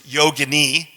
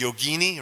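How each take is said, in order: First: Its ending does not rhyme with fettuccine. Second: Its ending rhymes with fettuccine and linguine. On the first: The speaker calls it right. "No, it's yogini, okay?" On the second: The speaker calls it wrong. "Mispronounced all the time, right? As yogini"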